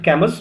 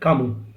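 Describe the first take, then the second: First: The final s sound is pronounced. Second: The final s sound is silent. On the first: The speaker calls it wrong. "We don't pronounce it Camus" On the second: The speaker calls it right. "we pronounce it Camus"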